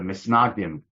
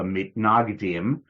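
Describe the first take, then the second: First: The consonant after 'Mi' is an s sound. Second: The consonant after 'Mi' is a t sound.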